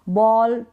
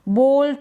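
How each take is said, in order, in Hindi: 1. स्वर 'saw' के 'aw' जैसा सुनाई देता है। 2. स्वर 'go' के 'oh' जैसा सुनाई देता है। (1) "ए को ऑ प्रोनाउंस करेंगे आप" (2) "ये गलत उच्चारण हो जाएगा"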